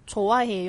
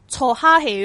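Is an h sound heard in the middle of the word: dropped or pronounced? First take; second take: dropped; pronounced. First: The h sound is dropped. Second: The h sound is clearly pronounced. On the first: The speaker calls it right. "咁我哋平时成日听到嘅就系错歪气哦" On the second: The speaker calls it wrong. "因为我有听过有啲学生"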